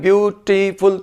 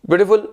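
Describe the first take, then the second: First: The word is broken up with pauses between syllables. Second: The word is said smoothly in one go.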